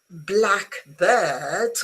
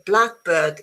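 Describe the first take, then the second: First: The stress is on bird. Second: The stress is on black. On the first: "with the stress on bird" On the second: It names a particular kind of bird. "A blackbird is a bird"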